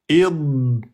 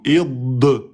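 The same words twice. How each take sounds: First: The final consonant is held with no sound after. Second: The final consonant is released with a sound after. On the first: The speaker calls it right. "Vous voyez, il n'y a pas de son après" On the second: The speaker calls it wrong. "Et ne dites pas id et vous relâchez la langue"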